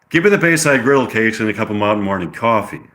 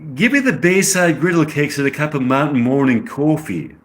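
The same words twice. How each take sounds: First: It is spoken in an American accent. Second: It is spoken in a British accent. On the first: "I'll give her the American accent" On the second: "I get the British accent"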